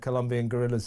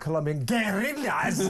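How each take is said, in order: First: The phrase is pronounced plainly and simply. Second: The phrase is pronounced in an affected, exaggerated way. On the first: "instead of just saying" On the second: "as she would"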